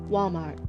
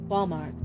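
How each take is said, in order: Both takes have the same delivery.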